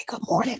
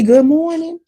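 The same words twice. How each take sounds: First: Good morning returned very softly, trailing off; soft reply. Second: High, bright good morning; bright greeting. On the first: Barista answering the greeting back, very soft. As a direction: barely breathe the reply back. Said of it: "I need you to say". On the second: Customer greeting a barista, bright and lifted. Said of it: "when I say". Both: Shown as a demonstration.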